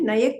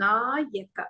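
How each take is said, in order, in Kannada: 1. ಮೊದಲ ಸ್ವರ ಹ್ರಸ್ವ ಇದೆ. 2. ಮೊದಲ ಸ್ವರ ದೀರ್ಘ ಇದೆ. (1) "ನಯಕ ಅಲ್ಲ" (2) "ದೀರ್ಘ ಇದೆ ನೋಡಿ"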